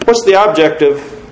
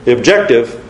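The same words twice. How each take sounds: First: What's the objective, with a falling tune; stress on objective. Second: The objective, firm stress on objective. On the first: Preacher testing his emphasis on objective. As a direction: lean on objective, falling at the end. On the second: Preacher checking the syllable stress on objective. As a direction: hit objective hard and drop. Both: Shown as a demonstration. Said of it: "Did I get the right emphasis on the right syllable there?".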